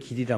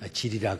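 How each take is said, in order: First: The word begins with a g sound. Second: The word begins with a j sound. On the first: The speaker calls it right. "길을 길이라 못하고" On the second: The speaker calls it wrong. "경상도 사람들을 ... 질이라 그러잖아요"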